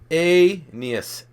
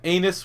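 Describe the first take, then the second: First: The name sounds like 'a-nee-us', three syllables. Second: The name sounds like 'anus', two syllables. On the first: The speaker calls it right. "It must be pronounced" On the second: The speaker calls it wrong. "That's not Anus"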